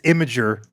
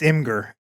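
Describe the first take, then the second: First: The name sounds like 'image' plus 'er'. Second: The name sounds like 'im' plus 'gur'. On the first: This is the official pronunciation. "The lore is that it's Imager" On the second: This is how people really say it. "but it's Imgur. Like real ones just call it Imgur"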